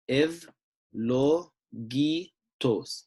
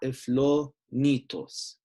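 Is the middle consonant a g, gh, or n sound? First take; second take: g; n. First: The middle consonant is a hard g sound. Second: The middle consonant is an n sound. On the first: The speaker calls it right. "this is going to be a G" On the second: The speaker calls it wrong. "not a n"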